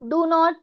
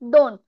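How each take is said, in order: First: It is said as two separate full words. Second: It is said as one contracted word.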